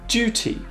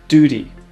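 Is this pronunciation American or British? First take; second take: British; American. First: It is said in British English. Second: It is said in American English.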